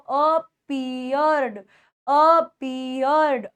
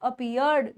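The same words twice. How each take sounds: First: Appeared stretched syllable by syllable; slow, broken-up appeared; slow pronunciation model. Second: Said in the usual way. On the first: Shown as a demonstration. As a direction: draw out "a-pee-yerd" for students to repeat. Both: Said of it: "बोल के देखो".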